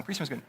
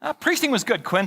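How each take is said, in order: First: Much softer repeat, under the breath; quiet aside. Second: Said in the usual way. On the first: Acted. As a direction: drop it to yourself, softer. Repeats his answer as an aside.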